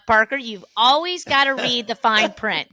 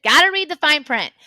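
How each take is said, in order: First: Said in the usual way. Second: Gotta read the fine print said louder and higher, pressing the lesson home; a mother drilling home a lesson; emphatic repeat. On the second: Retold or imitated. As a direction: hammer the Gotta read the fine print line a second time. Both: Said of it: "that was a lesson of".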